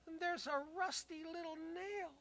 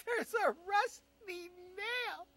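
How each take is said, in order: First: Said in the usual way. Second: Higher, louder and slow, laughing through it; laughing disbelief, slow and loud. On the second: Retold or imitated. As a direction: drag it out while cracking up. Laughing slow repeat of punchline.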